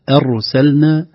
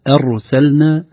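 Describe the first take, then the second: First: The opening vowel sounds light and thin. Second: The opening vowel sounds light and thin.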